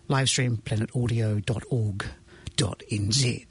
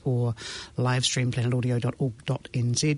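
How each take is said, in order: First: It is said slowly. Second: It is said at normal speed.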